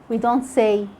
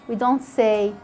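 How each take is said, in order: No difference in how they are said.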